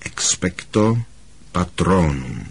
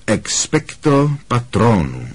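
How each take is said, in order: First: Softly echoed incantation; hushed, tentative-sized practice attempt; quiet repetition. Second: Slow, measured spell demonstration; deliberate, evenly spaced incantation; demonstrating the incantation. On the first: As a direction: repeat the spell quietly after the teacher. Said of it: "Opakoval po něm tiše Harry". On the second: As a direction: pronounce the spell slowly for a pupil. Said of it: "Ta formule zní takhle". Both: A narrator's reading.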